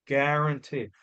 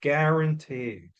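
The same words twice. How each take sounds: The two takes are said the same way.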